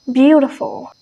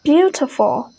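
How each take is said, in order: First: American "beautiful" with T turned to D; American pronunciation. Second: British "Beautiful" with a strong T; "Beautiful" with the T fully pronounced; British pronunciation. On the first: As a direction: say "beautiful" like "beaudiful". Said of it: "they change the T sound to D". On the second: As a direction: say "Beautiful" with a crisp T in the middle. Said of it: "it much more stronger". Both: Shown as a demonstration.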